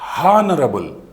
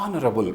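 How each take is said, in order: First: The word begins with an audible h sound. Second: The word begins directly with a vowel sound. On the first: The speaker calls it wrong. "Not హానరబుల్" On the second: The speaker calls it right. "హెచ్ను సైలెంట్గా వాడుతూ"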